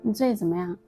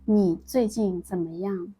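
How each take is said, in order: First: Some syllables are reduced and run together. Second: Every syllable is pronounced fully and clearly. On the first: "swallowing sounds version" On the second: "a version without swallowing sounds of this sentence"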